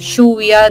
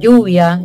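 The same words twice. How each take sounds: First: It is said with an Argentine accent. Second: It is said with a neutral Spanish accent. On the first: The speaker calls it wrong. "acá en Argentina ellos tienen que eliminar su acento argentino, en vez de decir lluvia" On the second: The speaker calls it right. "tienen que decir lluvia"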